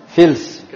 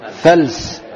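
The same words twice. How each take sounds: First: فلس said the wrong way, with kasra under the fa: fils; wrong pronunciation. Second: فلس said with fatha on the fa: fals; correct pronunciation. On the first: Teacher showing students the common mistake, mispronounced word. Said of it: "من الخطأ أن يقال فلس". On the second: Teacher giving students the right form, corrected word. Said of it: "الصواب ماذا؟". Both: Shown as a demonstration.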